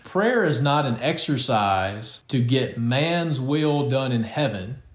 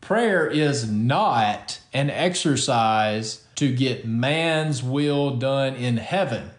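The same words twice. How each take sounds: First: The sentence is read plainly without extra emphasis. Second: The sentence is read with strong added emphasis.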